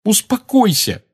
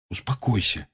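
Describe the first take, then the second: First: High-pitched indignant echo; heated exclamation. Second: Quietly calm a friend down; soothing. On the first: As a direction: throw the word back hotly. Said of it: "горячо воскликнула она". (горячо воскликнуть) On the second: Harry calming the agitated Hermione. (тихо успокаивая) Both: A narrator's reading.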